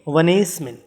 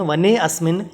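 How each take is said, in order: First: The 'a' is dropped and the words merge. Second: The 'a' of asmin is pronounced separately. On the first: The speaker calls it right. "हम करेंगे वनेस्मिन। अ का उच्चारण हमें नहीं करना है" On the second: The speaker calls it wrong. "इसका उच्चारण वने अस्मिन नहीं करके"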